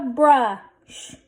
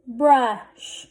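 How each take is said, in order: First: Blended slowly. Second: Said in the usual way. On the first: Shown as a demonstration. Teacher sounding out a word for readers, blended slowly. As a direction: brush drawn out, sounds held. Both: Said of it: "Let's read this".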